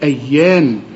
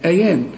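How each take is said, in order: First: The y sound is held and doubled. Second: The y sound is short and single. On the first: The speaker calls it right. "لأن الحرف مشدد" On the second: The speaker calls it wrong. "لو مفتوحة هتقول لي أيان"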